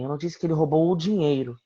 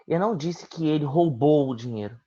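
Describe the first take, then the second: First: The word "dinheiro" carries the main stress. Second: The word "roubou" carries the main stress. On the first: He stole other things, not the money. "Ele roubou algumas coisas, mas não o dinheiro" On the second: He took it but did not steal it. "Eu disse que ele pegou, mas vai devolver"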